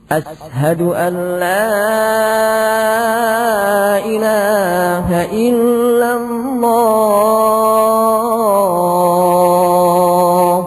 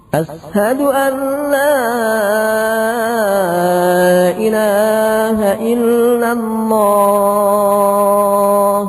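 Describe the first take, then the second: No difference in how they are said.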